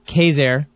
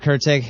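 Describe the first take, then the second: First: The name is said like 'Kayser', without 'r'. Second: The name is said like 'Kurtzeg', as spelled. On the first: The speaker calls it right. "but it's pronounced Kayser" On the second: The speaker calls it wrong. "It's spelled a Kurtzeg"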